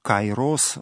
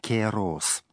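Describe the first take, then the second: First: The first syllable has the diphthong 'ai'. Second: The first syllable has a plain 'e' vowel. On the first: This is the ancient classical reading. "которое воспроизводит древнее античное произношение" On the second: This is the Byzantine reading. "а если читать в византийском произношении"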